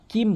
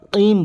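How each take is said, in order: First: "কিম" with an ordinary light front k; wrong kaf. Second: "কিম" with the k from the tongue root against the palate; deep qaf. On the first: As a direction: say "কিম" with a plain k, not from the tongue root. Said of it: "কাফের উচ্চারণ করা যাবে না". (সাধারণ কাফ দিয়ে "কিম") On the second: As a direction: say "কিম" with a back q sound. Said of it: "জিহ্বার গোড়া উপরে তালু থেকে". (জিহ্বার গোড়া থেকে "কিম") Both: Shown as a demonstration.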